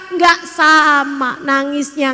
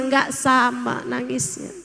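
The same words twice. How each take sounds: First: "Nggak" hit loud and drawn out, slow; emphatic. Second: Said in the usual way. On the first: Shown as a demonstration. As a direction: land "Nggak sama nangisnya" slowly and loudly. (tekanan keras dan lambat pada "Nggak")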